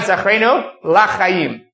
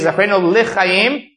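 First: The second word begins with the syllable 'la'. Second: The second word begins with the syllable 'li'. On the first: It could be heard as asking for no life. The speaker calls it wrong. "and not zachreinu lachayim" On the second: It asks to be remembered for life. The speaker calls it right. "you should make sure to say zachreinu lichayim"

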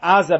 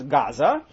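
First: The word starts with a guttural throat sound. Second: The word starts with a plain g sound. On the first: This is the original local name. "they have trouble with the guttural ah sound" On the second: This is the later British name. "what the British come to call Gaza"

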